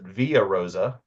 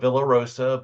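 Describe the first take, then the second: First: The double L is said as a Y sound. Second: The double L is said as an L sound. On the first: This follows the Spanish spelling. "pronounced it Via Rosa because technically it is the Espanol spelling" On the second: This is the usual reading of the spelling. "we call it Villa Rosa"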